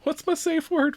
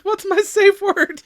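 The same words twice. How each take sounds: First: Mock high voice. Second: Pleading, over-the-top high voice; high, slow, loud mock voice. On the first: Acted character quote. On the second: Repeated, slower and louder.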